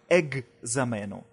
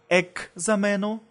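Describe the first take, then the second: First: The middle cluster is pronounced gz. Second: The middle cluster is pronounced ks. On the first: "и как «экзамено»" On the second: "можно произносить и как «экзамено»"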